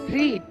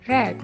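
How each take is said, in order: First: The word does not sound like 'red'. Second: The word sounds like the colour 'red'. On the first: It means to read, in the present. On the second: It is the third verb form.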